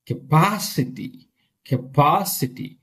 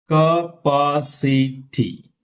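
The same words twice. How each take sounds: First: "Capacity" with a long, strong PA; stress on PA. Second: "Capacity" very slow, ca-pa-ci-ty; syllable by syllable. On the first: Teacher showing where stress is, lengthened stressed syllable. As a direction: lean on the second syllable of "Capacity". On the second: Teacher breaking word down for class, slow split word. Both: Shown as a demonstration. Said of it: "Here we have stress".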